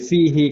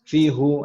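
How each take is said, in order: First: The final syllable ends with an i vowel. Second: The final syllable ends with a u vowel. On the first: The vowel matches the sound before it for ease. The speaker calls it right. "berubah menjadi kasroh" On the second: The original vowel is kept, which is hard to say. The speaker calls it wrong. "aduh susah banget ya"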